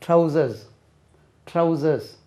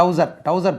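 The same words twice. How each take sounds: First: ட்ரவுசர்ஸ் as "trau-zuhs", tr kept, final s sounded; ட்ரவுசர்ஸ் in careful English, falling at the end; correct pronunciation. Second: டவுசர் as "dowsar", no tr cluster, no final s; டவுசர் with the r after the first sound dropped; colloquial mispronunciation. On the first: Shown as a demonstration. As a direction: model ட்ரவுசர்ஸ் carefully with its plural ending. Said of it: "ட்ரவுசர்னு சொல்லக்கூடாது". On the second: Retold or imitated. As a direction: imitate the everyday Tamil டவுசர். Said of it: "சொல்லக்கூடாது".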